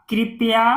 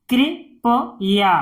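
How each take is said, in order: First: Said in the usual way. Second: "कृपया" in three separated parts; syllable by syllable. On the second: Shown as a demonstration. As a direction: break "कृपया" up with pauses. Teacher sounds out, then blends. ("कृपया" को तोड़कर पढ़ना)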